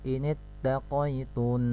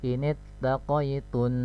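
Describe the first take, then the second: No difference in how they are said.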